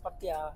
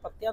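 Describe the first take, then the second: First: The name is drawn out long with a tune. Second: The name is said short without the tune. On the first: "ये पत्तिया को लंबा खींचते" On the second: "हम पत्तिया टोन ना ले पाए"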